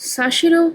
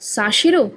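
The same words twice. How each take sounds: First: It is said as Sa-shero, French style. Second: It is said as Sa-shero, French style.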